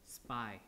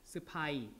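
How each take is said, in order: First: It is said as a single syllable. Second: A vowel is inserted, giving two syllables. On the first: "English is just spy, like that... you just have one syllable" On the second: "insert a vowel here, and then you have like that"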